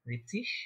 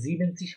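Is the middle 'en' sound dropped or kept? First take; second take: dropped; kept. First: The word drops the middle 'en' syllable. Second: The word keeps a full middle 'en' syllable. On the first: The speaker calls it right. "এই লাস্টে এই এনটা বলে না ওরা" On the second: The speaker calls it wrong. "কিন্তু জিবেনসিস হবে না"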